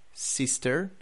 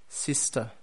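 First: "sister" the American way, final R sounded, rising; American demo of "sister", tune left open; American accent. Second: "sister" the British way, silent final R, falling; British demo of "sister" with a closing fall; British accent. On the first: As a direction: model American "sister" with an r-coloured ending. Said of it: "The same with brother in". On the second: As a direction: model British "sister", ending in an open uh. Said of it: "and then in the British". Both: Shown as a demonstration.

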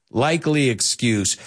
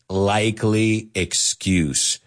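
First: Said in the usual way. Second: Likely excuse, said slowly and deliberately; slow, drawn-out. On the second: Shown as a demonstration. Teacher modelling a phrase for students, slow and clear. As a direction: stretch out likely excuse for the learners. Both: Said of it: "As we say in English".

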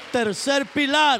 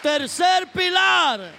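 First: Announcing point. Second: "Tercer pilar" slower, higher and louder, drawn out; emphatic proclamation. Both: Acted.

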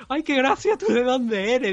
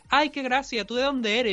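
First: Much higher, exaggerated sing-song teacher voice; repeating the teacher's condescending line as a high, hammed-up parody; mocking the teacher again. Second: High, sing-song imitation of a condescending teacher; retelling how the teacher mocked his Andalusian accent, imitating her in a high, patronising voice; mocking the teacher. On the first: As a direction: ham up her patronising tone, way up high. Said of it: "qué es eso de decirle a un alumno".

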